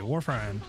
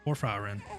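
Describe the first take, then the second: First: The middle syllable is dropped, giving two syllables. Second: The middle syllable is pronounced, giving three syllables. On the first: The speaker calls it wrong. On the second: The speaker calls it right.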